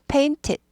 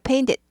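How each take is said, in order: First: The middle t sound is cut off sharply. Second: The middle t sound is softened and weakened. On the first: "여기 스타카토가 있는 거죠" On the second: "약화돼서 painted"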